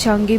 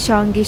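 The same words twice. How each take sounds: The two takes are said the same way.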